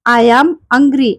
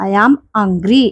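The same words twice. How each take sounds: First: Slow drill. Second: Said in the usual way. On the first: Shown as a demonstration. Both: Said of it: "teacher drilling phrase".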